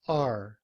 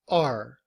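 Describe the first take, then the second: First: The word is said in a reduced form. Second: The same.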